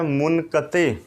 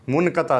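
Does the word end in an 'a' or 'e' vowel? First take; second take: e; a. First: The word ends in an 'e' vowel. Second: The word ends in an 'a' vowel. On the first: The speaker calls it right. "ये है मुनक़ते" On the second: The speaker calls it wrong. "मुनक़ता नहीं है"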